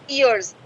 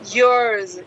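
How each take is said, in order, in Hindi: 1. स्वर 'ears' जैसा सुनाई देता है। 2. स्वर 'yours' जैसा सुनाई देता है। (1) "अब हम ईयर्स बोलते हैं" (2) "ये बोल रही है yours"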